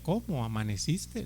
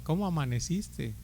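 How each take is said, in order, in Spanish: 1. Suena plana e indiferente. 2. Suena cálida y cariñosa. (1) "La misma palabra, pero con otra entona, entonación" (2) "recién casado, su esposo todas las mañanas le preguntaba"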